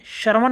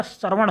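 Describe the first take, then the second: First: श्रवण ended on a dental n, "shravan"; wrong final nasal. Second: श्रवण with retroflex ṇ at the end; correct retroflex ending. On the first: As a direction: flatten the ण of श्रवण to न. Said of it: "नहीं होता". (श्रवण को श्रवन जैसा) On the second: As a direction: curl the last n of श्रवण. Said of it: "होता है". (श्रवण में साफ़ ण) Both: Shown as a demonstration.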